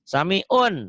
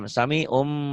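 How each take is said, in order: First: The word ends with an N sound. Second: The word ends with an M sound. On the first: "nih un, N" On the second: "Ujungnya jadi M"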